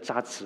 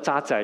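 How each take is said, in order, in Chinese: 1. 这是按大陆人的说法读的。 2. 这是按台湾人的说法读的。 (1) "你们说是万物中的渣滓" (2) "我们讲万物中的渣滓"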